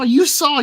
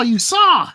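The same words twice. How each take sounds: First: "you" punched high and loud in "You saw."; stress on you. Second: "saw" shouted loud and falling in "You saw!"; stress on saw. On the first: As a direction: jab at the person with "you". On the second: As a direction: land the blow on "saw". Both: Acted. Repeated accusation.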